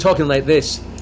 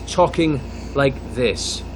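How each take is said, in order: First: It is spoken quickly, without pauses. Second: It is spoken slowly, with deliberate pauses.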